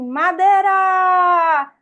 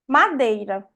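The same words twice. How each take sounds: First: The word is shouted as a loud warning. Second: The word is said calmly and plainly.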